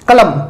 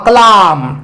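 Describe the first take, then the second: First: The second vowel is short. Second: The second vowel is long and open.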